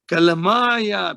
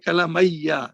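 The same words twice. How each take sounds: First: The ending has a long 'aa' before 'ya'. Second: The ending has an 'ayya' sound without long a. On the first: It is the nominative form. The speaker calls it right. "we say Kalamaya because it's marfu" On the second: It is the accusative or genitive form. The speaker calls it wrong. "we don't say Kalamaya"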